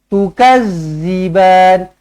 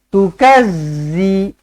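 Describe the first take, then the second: First: The middle consonant is a soft th sound. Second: The middle consonant is a hard z sound. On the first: The speaker calls it right. "huruf zal di hujung lidah" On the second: The speaker calls it wrong. "Itu yang salah"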